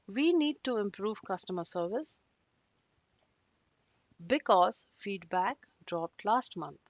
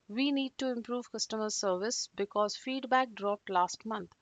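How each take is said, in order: First: It is said with a pause in between. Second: It is said continuously without any pause.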